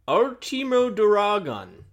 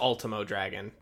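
First: The name is said with Japanese pronunciation. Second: The name is said with English pronunciation.

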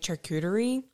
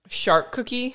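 First: The word is said with four syllables, 'shar-koo-tuh-ree'. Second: The word is said like 'shark cookie'. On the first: The speaker calls it right. "It took me a very long time to say charcuterie" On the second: The speaker calls it wrong. "Not shark cookie. Like some people say"

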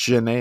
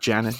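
First: The name is said with a French pronunciation. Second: The name is said with an English pronunciation. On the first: The speaker calls it right. "it's Janet and not Janet because he's French" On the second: The speaker calls it wrong. "not Janet"

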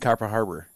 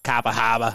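First: The name is said in a plain accent. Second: The name is said in a Boston-style accent.

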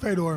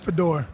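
First: The name is said in an English way. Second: The name is said in a Russian way. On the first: "I pronounce it Fedor" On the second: "technically I believe in Russia it's Fedor"

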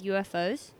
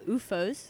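First: It is pronounced the usual English way. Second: It is pronounced the way Dutch speakers say it.

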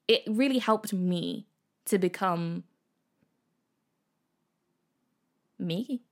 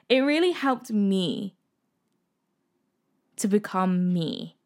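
First: The voice rises at the end, like a question. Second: The voice falls at the end, sounding confident.

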